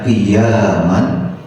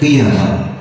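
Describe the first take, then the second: First: The vowel after the y is held long. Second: The vowel after the y is kept short. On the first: "yaknya dibaca panjang" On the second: "ada yang membacanya pendek"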